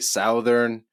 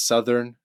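First: It is said the Canadian way. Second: It is said the American way. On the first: "in Canada, we would say Southern" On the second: "you go to the States and you learn that it's Southern"

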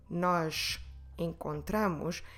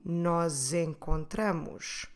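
First: The two words are said separately. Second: The two words are run together. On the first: "to split the words and say" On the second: "it's really normal to put them together and say"

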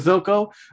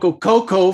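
First: The name begins with a th sound. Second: The name begins with a hard k sound. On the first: The speaker calls it right. "it's actually" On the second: The speaker calls it wrong. "So it's not a hard C"

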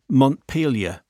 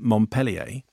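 First: The name is said the plain English way. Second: The name is said like the French city. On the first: The speaker calls it right. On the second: The speaker calls it wrong.

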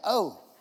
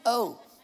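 No difference in how they are said.

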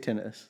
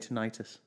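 First: The word is pronounced the British way. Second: The word is pronounced the American way. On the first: The speaker calls it right. "we say tinnitus" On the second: The speaker calls it wrong. "They say tinnitus"

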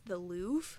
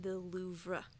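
First: The final R sound is left silent. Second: The final R sound is clearly pronounced. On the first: The speaker calls it wrong. "I always thought you pronounced this the Louvre" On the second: The speaker calls it right. "it's actually the Louvre. Like, there's an R in it"

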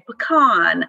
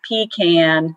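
First: It uses the northern-style pronunciation of the word. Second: It uses the southern-style pronunciation of the word. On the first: The nut is being sold at a high price to northern buyers. "if he were trying to price it high and selling to what he called Yankees up north, he'd say pecan" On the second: The nut is being sold to local buyers in the South. "if he was down in South Georgia, where we're from, he'd say pecan"

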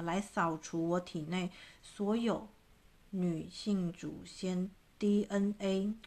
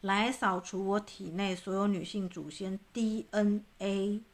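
First: It is said slowly. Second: It is said fast.

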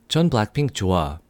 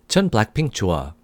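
The two takes are said the same way.

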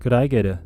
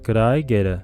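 First: It is said at a faster speed. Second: It is said at a moderate speed.

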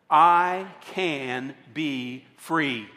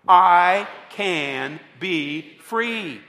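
First: It is said at normal volume. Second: It is said loudly and forcefully.

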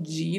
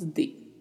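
First: The D sounds like 'dj' before the vowel. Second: The D is a plain 'd' before the vowel. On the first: The speaker calls it wrong. "não tem esse som de no espanhol" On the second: The speaker calls it right. "então falamos de"

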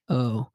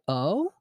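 First: The voice falls flatly at the end. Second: The voice rises like a question.

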